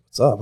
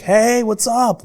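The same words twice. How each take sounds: First: Said in the usual way. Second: Imitated high, long-drawn cheery greeting; breezy, nothing wrong. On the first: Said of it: "I was so confused". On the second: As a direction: greet as if nothing ever happened, high and stretched. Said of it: "like, nothing went wrong".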